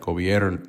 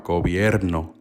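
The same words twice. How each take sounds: First: The R is said like an English R. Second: The R is said with a light roll. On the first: "But she doesn't say it like that. She says it like" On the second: "Most Spanish speakers put a little a little roll in that R"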